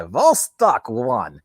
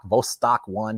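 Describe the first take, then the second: First: Slow mock Russian accent on Vostok one. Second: Said in the usual way. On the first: Shown as a demonstration. Joking about vodka, saying Vostok one in a Russian accent. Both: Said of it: "You can say it like a Russian accent".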